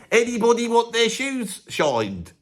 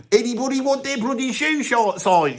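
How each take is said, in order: First: Higher, slower street call with teeth; redone shoeshine call. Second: Calling out to passers-by, higher; a lad touting for shoe shines; shoeshine boy call. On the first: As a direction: call out to passers-by, slowly. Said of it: "I'll do that bit again". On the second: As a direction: street call, pitched up. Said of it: "I could say it better back then". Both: Shown as a demonstration.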